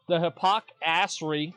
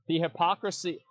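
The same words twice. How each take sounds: First: "the hypocrisy" drawn out slowly, leaning on "the"; slow, weighty "the hypocrisy" with scorn; stress on hypocrisy. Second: Said in the usual way. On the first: Shown as a demonstration. Streamer scorning forum hypocrites, slow emphatic "the hypocrisy".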